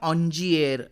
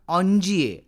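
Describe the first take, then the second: First: Soft j in the middle, ending with an r. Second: Soft j in the middle, ending without an r. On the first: Some people say it this way. "कुणी याचा उच्चार ऑन्जिएर असा करतात" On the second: This is how it is said in French. "फ्रेंचमध्ये त्याचा उच्चार ऑन्जिये असाच होतो"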